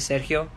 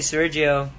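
First: The name is said in a Spanish accent. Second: The name is said in an English accent. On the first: "if you're saying it in Spanish" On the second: "like everyone does"

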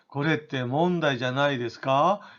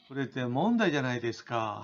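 First: The pitch rises at the end of the question. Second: The pitch falls at the end of the question. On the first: The speaker unsurely asks for confirmation. "왠지 자신 없는 듯이 확인을 요구하는 거죠" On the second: The speaker strongly asserts and objects. "꼬리를 내려서"

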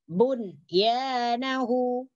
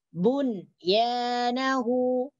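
The two takes are said the same way.

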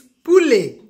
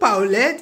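First: The first vowel sounds like 'oo'. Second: The first vowel sounds like 'aw'. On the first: The speaker calls it right. "it's poulet" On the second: The speaker calls it wrong. "It's not paulette"

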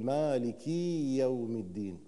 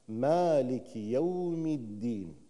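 First: The first word ends in a long ee vowel. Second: The first word ends in a short i vowel. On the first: The speaker calls it wrong. "البعض يطيل في هذه الحركة فيجعل أو ينطق حرف الياء" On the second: The speaker calls it right. "فيجب أن أحقق حركة كسر"

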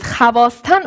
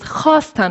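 First: A v sound follows the first consonant. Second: No v sound follows the first consonant. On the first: The speaker calls it wrong. "biz havasten okumuyoruz" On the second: The speaker calls it right. "hasten okuyoruz"

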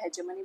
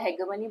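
First: The middle consonant is a j sound. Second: The middle consonant is a hard g sound. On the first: "या हेजेमनी बोलो" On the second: "या हेगेमनी बोलो"

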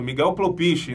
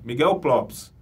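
First: The surname ends with an extra vowel sound. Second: The surname ends with a consonant sound. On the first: The speaker calls it wrong. "A gente pronunciava errado" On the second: The speaker calls it right. "É o correto"

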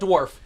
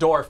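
First: The word starts with a dw sound. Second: The word starts with a plain d sound. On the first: The speaker calls it wrong. "not Dwarf" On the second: The speaker calls it right. "D-O-R-F, Dwarf"

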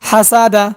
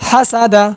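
No difference in how they are said.

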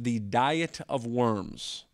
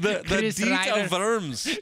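First: Diet is said like the English word diet. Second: Diet is said with an ee sound, deet. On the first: The speaker calls it wrong. "what is oftentimes pronounced" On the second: The speaker calls it right. "the actual way to say it is. ... So DEET"

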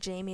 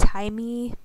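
First: The name is said in an American way. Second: The name is said in a Spanish way.

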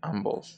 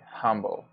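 First: The word begins without any H sound. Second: The word begins with an audible H sound. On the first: The speaker calls it wrong. "when we don't say humble" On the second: The speaker calls it right. "when we say humble"

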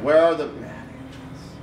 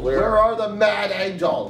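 First: The question is said quietly. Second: The question is said loudly.

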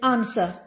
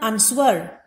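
First: No W sound is heard in the middle. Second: A W sound is heard in the middle. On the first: The speaker calls it right. "it is answer. So the W sound in the middle is silent" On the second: The speaker calls it wrong. "It is not answer"

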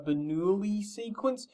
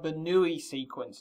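First: The name is said with a French accent. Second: The name is said with an English accent.

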